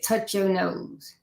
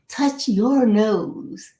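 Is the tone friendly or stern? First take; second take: stern; friendly. First: It is said in a cold, commanding tone. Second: It is said in a warm, inviting tone. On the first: The request feels intimidating and may cause freezing up. "they're not smiling" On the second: The request feels welcoming and easy to follow. "they're smiling and it's inviting"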